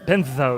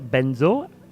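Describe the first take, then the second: First: The middle consonant is a lisped th sound. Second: The middle consonant is a buzzing z sound. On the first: The speaker calls it wrong. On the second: The speaker calls it right.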